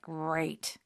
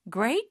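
First: It is said sarcastically, meaning not great. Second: It is said sincerely, as a good thing.

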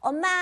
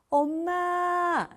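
First: It is pushed from a tense throat. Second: It is soft and warm from the belly.

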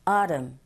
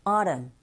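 First: It is said with a North American accent. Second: It is said with a North American accent.

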